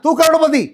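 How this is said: It is said in an angry tone. "फिर कभी गुस्से में बोलना है"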